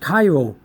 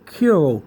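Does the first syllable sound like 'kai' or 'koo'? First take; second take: kai; koo. First: The first syllable sounds like 'kai'. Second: The first syllable sounds like 'koo'. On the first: The speaker calls it right. "but it's really pronounced Cairo" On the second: The speaker calls it wrong. "some people may pronounce this Kuro"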